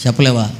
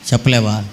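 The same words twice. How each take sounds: The two takes are said the same way.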